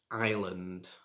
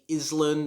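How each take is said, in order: First: The S is silent. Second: The S is sounded. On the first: The speaker calls it right. "the S is silent, It should be pronounced island" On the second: The speaker calls it wrong. "don't say Island"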